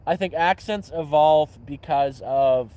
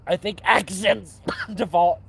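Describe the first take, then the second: First: Said in the usual way. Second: Slow words broken by coughs; real cough interrupting speech; coughing mid-sentence. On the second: Real, not acted. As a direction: try to talk through a coughing fit.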